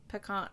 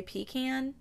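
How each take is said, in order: First: Pecan said puh-KAHN, softly; puh-KAHN pronunciation. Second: Pecan said pee-KAN, long EE then short A; PEE-can pronunciation. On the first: Host tests their usual version, soft puh-KAHN for pecan. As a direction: say pecan quietly with an AH in the last syllable. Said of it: "it's pretty much always pecan". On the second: Host ponders their own habit, pecan as pee-KAN. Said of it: "when I actually say pecan". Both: Shown as a demonstration.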